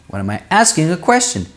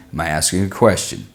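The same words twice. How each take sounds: First: Much higher, exaggerated question melody; high, sing-song demonstration of asking; tone going up. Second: Low-pitched demonstration of asking; tone going down. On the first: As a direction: swing the pitch way up through "asking a question". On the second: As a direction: drop the pitch right down for "asking a question". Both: Shown as a demonstration. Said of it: "My tone goes up and down".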